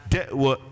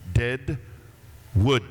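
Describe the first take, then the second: First: The d sound is pronounced like a t. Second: Both d sounds are clearly pronounced as d. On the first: This is the local Indian slang way of saying it. "you say it with a T, like this" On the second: This is the standard way to say the town's name. "you pronounce your D's"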